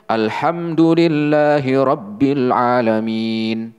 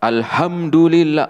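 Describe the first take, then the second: First: "Alhamdulillahi Rabbil Alamin" recited slowly and correctly, with the letter H right; correct recitation. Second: "Alhamdulillah" said with the wrong H letter swapped in. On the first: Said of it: "Yang harusnya". (bacaan yang benar "Alhamdulillahi Rabbil Alamin") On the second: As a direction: demo of the letter swap in "Alhamdulillah". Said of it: "Ini dibaca". (contoh salah, huruf H "Alhamdulillah" diganti) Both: Shown as a demonstration.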